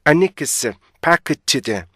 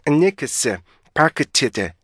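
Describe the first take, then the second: No difference in how they are said.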